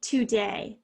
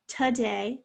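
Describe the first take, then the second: First: TODAY said as too-day; today with a clear oo in the first syllable; full-vowel today. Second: TODAY said as tuh-day; today with a reduced uh first syllable; schwa in today. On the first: Teacher showing one way to say today, as too-day. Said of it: "If you say today". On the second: Teacher showing the other today, as tuh-day. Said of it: "a little bit of a schwa". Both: Shown as a demonstration.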